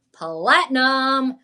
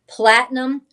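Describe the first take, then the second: First: "platinum" stretched slowly, syllable by syllable; drawn-out emphasis. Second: Said in the usual way. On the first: Acted. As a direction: savor "platinum", lingering on each syllable. Repeats word drawn out for emphasis.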